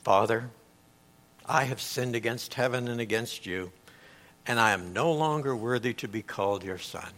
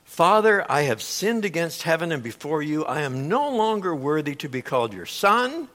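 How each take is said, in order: First: Quieter, lower, hushed confession; a son facing his father, quiet and lower; humble plea. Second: Lightly voiced son rehearsing his speech; a hint of a pleading son, mostly plain; rehearsed plea. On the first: Retold or imitated. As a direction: say it broken and humbled, softly. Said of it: "the son begins his speech". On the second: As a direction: recite it like a practiced apology. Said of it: "He says".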